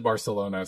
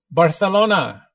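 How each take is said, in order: First: Said in the usual way. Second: Barcelona with a lisped th, "Bar-thay-LOH-na"; playful Castilian Barcelona with th for c; Castilian pronunciation. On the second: Pretend. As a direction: call out Barcelona Spanish-style, high and loud. Echoes city in Castilian Spanish pronunciation.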